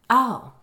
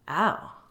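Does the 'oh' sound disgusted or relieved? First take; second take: relieved; disgusted. First: It sounds relieved. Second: It sounds disgusted. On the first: The speaker is glad the comparison does not apply. "somehow relieved" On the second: The speaker finds the description repulsive. "this time disgusted"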